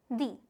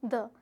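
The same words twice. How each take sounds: First: "the" said with a long ee, like "dee". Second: "the" with a short schwa, like "duh". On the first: Teacher showing the class how "the" sounds before English, pronounced "dee". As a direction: say "the" to rhyme with "see". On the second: Teacher showing the class how "the" sounds before French, pronounced "duh". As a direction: say "the" with a brief uh vowel. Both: Shown as a demonstration. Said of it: "यहाँ मैं इसको pronounce कर रही हूँ".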